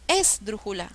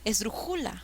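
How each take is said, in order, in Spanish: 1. El acento está en la primera sílaba. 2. El acento está en la tercera sílaba. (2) "Mm, mm"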